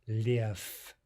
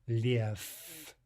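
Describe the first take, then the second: Both takes have the same delivery.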